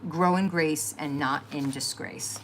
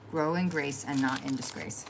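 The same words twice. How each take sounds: First: Each word drawn out slowly, like a cherished saying; slow quoted motto. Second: Said in the usual way. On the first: Retold or imitated. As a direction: read it slowly and deliberately, savoring it. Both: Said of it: "my favorite one he used to say".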